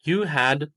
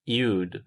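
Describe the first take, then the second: First: Two full words are said separately. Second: The words merge into one short syllable. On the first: "full form" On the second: "मुख्तसर सूरत"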